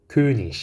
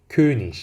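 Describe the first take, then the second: No difference in how they are said.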